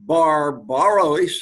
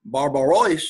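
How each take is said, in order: First: Sounded out slowly. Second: Said in the usual way. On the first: Shown as a demonstration. Sounds out Greek word, then repeats.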